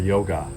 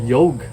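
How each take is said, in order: First: The word ends with a final a sound. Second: The word ends without a final a sound. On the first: This is the form used in English. "the A at the end of every Sanskrit word is actually added for English" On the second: This is the native Sanskrit or Hindi form. "the actual Sanskrit or Hindi word is"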